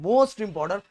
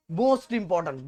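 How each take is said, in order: First: Most punched hard; teacher urging students that it matters, loudly; emphatic louder repeat. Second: Firm stress on most; teacher stressing most for exam students, firmly; emphatic. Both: Shown as a demonstration.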